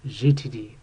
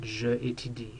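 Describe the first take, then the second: First: The pronoun is blended straight into the verb. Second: The pronoun is said as a separate syllable. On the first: The speaker calls it right. "just goes right together" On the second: The speaker calls it wrong. "it sounds better than je étudie"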